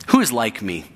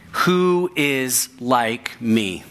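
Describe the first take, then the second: First: Said in the usual way. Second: Slow taunting challenge. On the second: Acted. Slow quote of God's challenge.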